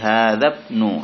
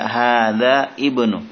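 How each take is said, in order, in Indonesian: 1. Kedua kata disambung dan hamza dihilangkan. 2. Kedua kata dibaca terpisah dengan hamza. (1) "tapi hadzabnu hamidin" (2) "Tidak hadza ibnu, tidak seperti itu"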